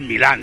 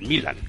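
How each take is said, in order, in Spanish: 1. El nombre se dice a la manera tradicional española. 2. El nombre se dice a la manera extranjera, afectada. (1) "Es el Milan de toda la vida" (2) "Yo considero muy cursi todo eso del Milan"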